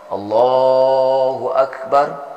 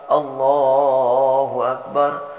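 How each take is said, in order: Both takes have the same delivery.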